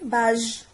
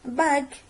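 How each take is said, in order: First: The g is soft, like the s in measure. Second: The g is hard, like the g in go. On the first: The speaker calls it wrong. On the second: The speaker calls it right.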